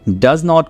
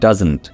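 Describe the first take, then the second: First: It is said as two full words. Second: It is said as one contracted word.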